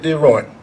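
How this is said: The name is said with American pronunciation. "most of you would say Diron, the Americans"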